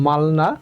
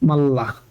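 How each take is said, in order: First: An l sound is followed by an n sound. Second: A doubled l sound replaces the n sound. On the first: The speaker calls it wrong. "উচ্চারণ হওয়ার কথা ছিল মালনা" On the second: The speaker calls it right. "রিউলের পরে নিউন থাকলে উচ্চারণ হবে লয় ল"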